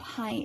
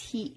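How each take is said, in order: First: The vowel sounds like English 'high'. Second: The vowel sounds like English 'he'. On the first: The speaker calls it wrong. "It's not high" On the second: The speaker calls it right. "it's he"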